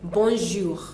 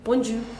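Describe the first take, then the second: First: The j sound is soft and light. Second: The j sound is hard and thick. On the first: The speaker calls it right. "What we have is a soft one" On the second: The speaker calls it wrong. "they tend to pronounce it the wrong way"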